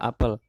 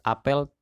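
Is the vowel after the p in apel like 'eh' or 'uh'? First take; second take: uh; eh. First: The second vowel is a short neutral 'uh' sound. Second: The second vowel is an open 'eh' sound. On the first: It means the fruit, an apple. "diucapkan dengan lafal yang sama, seperti kata me pada kata memukul" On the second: It means a gathering or assembly. "dilafalkan seperti melafalkan ejaan huruf L"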